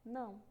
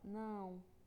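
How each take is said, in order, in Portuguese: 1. A palavra é dita em velocidade normal. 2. A palavra é dita devagar e alongada.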